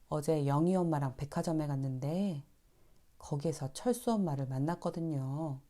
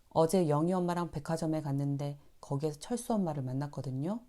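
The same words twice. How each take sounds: First: The middle and end of the sentence are stretched. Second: The sentence runs on quickly without stretching. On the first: It sounds softer and kinder. The speaker calls it right. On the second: It can sound curt. The speaker calls it wrong.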